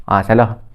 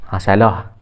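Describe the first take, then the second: Both takes have the same delivery.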